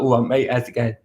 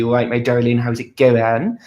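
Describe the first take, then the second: First: Casual Essex greeting to a mate; Essex accent. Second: West Country accent. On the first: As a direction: drop into a cheeky Essex accent. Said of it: "very Essex". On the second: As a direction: lay the West Country accent on thick and friendly. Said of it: "very West Country". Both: Shown as a demonstration.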